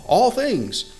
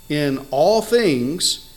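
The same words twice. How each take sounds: First: "all" jumps much higher and falls; preaching the verse again, "all" leaps up high; stress on all. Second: "all" drawn out very slowly with a rising tune; verse reading, stretching "all" out slowly; slow emphasis on all. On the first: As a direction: punch "all" high, then let it drop. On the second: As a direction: lean slowly into "all" as you read. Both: Shown as a demonstration. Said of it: "put the emphasis on every word that needs emphasis".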